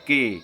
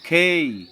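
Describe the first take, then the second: First: It is said in the Bengali school way. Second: It is said the way native English speakers do. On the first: The speaker calls it wrong. "আমাদের বিদ্যালয়গুলোতে শেখানো হয়" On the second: The speaker calls it right. "অথচ হবে খেই"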